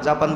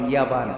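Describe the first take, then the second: First: The word starts with j and has a p. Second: The word starts with y and has a b. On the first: "আমরা জাপান বলি না" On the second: "ওরা বলে ইয়াবান।"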